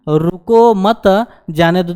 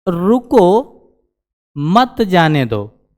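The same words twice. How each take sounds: First: There is a pause after the second word. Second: There is a pause after the first word.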